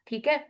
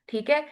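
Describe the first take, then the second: No difference in how they are said.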